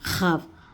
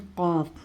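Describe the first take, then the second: First: It starts with a raspy, friction kh sound. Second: It starts with a deep stop q sound. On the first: The speaker calls it wrong. "हम खाफ बोलते हैं इसे" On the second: The speaker calls it right. "खाफ नहीं बोलेंगे, इसे हम क्या बोलेंगे"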